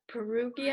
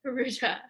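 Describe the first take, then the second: First: Perugia with a hard g, "puh-ROO-gee-uh"; hard-g pronunciation. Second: Perugia with a soft zh, "puh-ROO-zhah"; corrected pronunciation. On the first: Real, not acted. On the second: Shown as a demonstration. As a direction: echo Perugia with g softened to zh.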